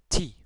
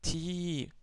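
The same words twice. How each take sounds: First: The vowel is short. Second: The vowel is long. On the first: "Avec la kasra, ça nous donne ti" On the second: "ti prolongé"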